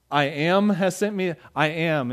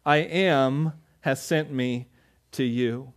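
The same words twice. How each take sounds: First: Puzzled repeat. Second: Solemn divine voice. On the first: Retold or imitated. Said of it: "you go like". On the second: Acted. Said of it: "And he said".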